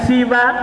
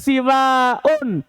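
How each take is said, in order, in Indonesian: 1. Vokal pertama i pendek, akhiran terbuka pendek. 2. Vokal pertama i pendek, akhiran panjang dengan hamzah. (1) "siwa karido, seperti kata ridho" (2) "siwaun seperti binaun"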